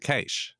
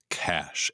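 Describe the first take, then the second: First: The vowel is raised, sounding like 'ay'. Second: The vowel is low, dropped back in the throat. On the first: The speaker calls it wrong. "I used to say treish and keish" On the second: The speaker calls it right. "I had to learn to drop that A down into my throat"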